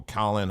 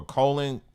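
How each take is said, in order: First: "Colin" with an open first vowel, as KAH-lin; alternative name pronunciation. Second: "Colin" with a long O, as COH-lin; alternative name pronunciation. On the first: Host correcting himself on a player's name, "Colin" as KAH-lin. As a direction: say "Colin" starting like "collar". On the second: Host unsure of a player's name, "Colin" as COH-lin. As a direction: say "Colin" to rhyme with "rollin'". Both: Shown as a demonstration. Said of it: "however you say it".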